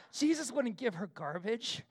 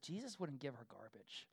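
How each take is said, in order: First: Full-voiced defensive protest, rising at the end; self-justifying retort; defending himself. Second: Very soft, low aside; hushed, sheepish murmur; quiet voice. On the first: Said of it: "trying to, like, defend myself". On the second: Retold or imitated. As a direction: say it under your breath to your wife. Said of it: "in a quiet voice".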